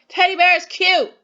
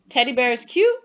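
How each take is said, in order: First: It is said with strong, excited emotion throughout. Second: It is said as a question, rising at the end. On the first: The speaker feels strong emotion. "saying it with some emotion" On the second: The speaker is asking. "Am I asking?"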